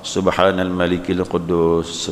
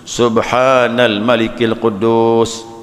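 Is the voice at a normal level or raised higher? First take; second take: normal; raised. First: The voice stays at a normal level. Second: The voice is raised higher than before.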